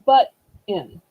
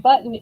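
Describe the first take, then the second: First: The word has a short gap in the middle. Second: The word is said smoothly with no gap. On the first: "it's like butt in. ... take this this little blank in between" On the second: "instead of saying button"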